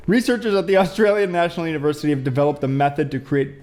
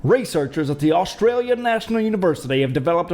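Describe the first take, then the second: First: Said in the usual way. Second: A poor put-on Australian accent reading the headline; bad Australian accent. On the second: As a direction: try an Australian accent and miss. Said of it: "I don't even know what accent that is".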